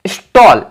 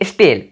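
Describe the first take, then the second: First: The vowel is a rounded 'aw' sound. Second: The vowel is an 'e' sound as in bed. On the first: The speaker calls it right. "स्टॉल बोलते हो" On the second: The speaker calls it wrong. "स्टेल नहीं बोलते हो"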